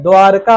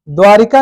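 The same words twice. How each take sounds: First: द्वारका as 'dwaar-ka', no i; correct pronunciation. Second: द्वारिका with an extra i, 'dwaa-ri-ka'; wrong pronunciation. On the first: Teacher giving the right word, no 'ri' in it. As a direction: join r straight to ka in द्वारका. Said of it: "द्वारका होता है". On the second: Teacher rejecting the faulty word, with 'ri' inserted. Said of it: "द्वारिका नहीं होता है". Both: Shown as a demonstration.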